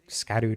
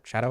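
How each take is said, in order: First: The word begins with an 'sk' sound. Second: The word begins with a 'sh' sound. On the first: The speaker calls it wrong. "I pronounced it Scadu tree through my entire playthrough" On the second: The speaker calls it right. "supposed to be pronounced shadow"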